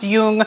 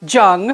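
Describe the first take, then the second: First: The name starts with a Y sound. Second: The name starts with a J sound. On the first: The speaker calls it right. "it's definitely a Y, what we would consider a Y sound in the front there" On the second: The speaker calls it wrong. "A lot of students want to say Jung"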